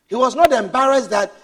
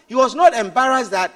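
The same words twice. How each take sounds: The two takes are said the same way.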